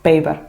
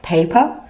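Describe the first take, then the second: First: The word begins with a voiced B sound. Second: The word begins with a voiceless P sound. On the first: The speaker calls it wrong. "Arabic speakers might say paper" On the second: The speaker calls it right. "instead of saying paper"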